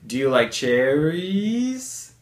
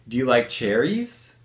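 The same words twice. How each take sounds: First: It is spoken slowly, drawing out the rise. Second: It is spoken at a normal, natural speed. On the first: "if I slow that down" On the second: "I moved my voice up in pitch"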